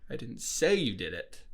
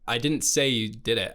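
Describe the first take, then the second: First: The stress is on the word say. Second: The stress is on the word I.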